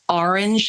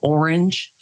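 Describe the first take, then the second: First: The word has a northern New Jersey pronunciation. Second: The word has a standard, non-regional pronunciation. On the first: "And I say orange" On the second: "instead of orange"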